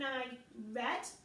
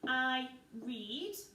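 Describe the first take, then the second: First: The verb is said in its past-tense pronunciation. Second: The verb is said in its present-tense pronunciation. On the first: The action already happened. "rather than saying" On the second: The action happens now or habitually. "you would say I read to make it present tense"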